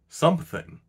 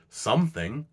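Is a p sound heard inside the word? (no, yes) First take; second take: yes; no. First: The word is said with a p sound. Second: The word is said without a p sound.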